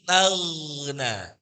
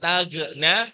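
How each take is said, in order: First: The gh flows on, slightly lengthened. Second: The gh is cut short with a bounce. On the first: The speaker calls it right. "Tapi tagna, ... dialirkan" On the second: The speaker calls it wrong. "Boten tagna"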